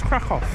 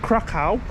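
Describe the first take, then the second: First: The word ends with a 'v' sound. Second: The word ends with an 'ow' sound. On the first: The speaker calls it right. "but actually it's Krakow. The W is a V" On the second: The speaker calls it wrong. "we call Krakow Krakow"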